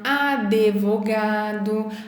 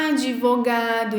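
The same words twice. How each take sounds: First: An extra vowel sound is inserted after the d. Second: The d is followed directly by v. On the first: The speaker calls it wrong. "e não advogado" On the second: The speaker calls it right. "É advogado"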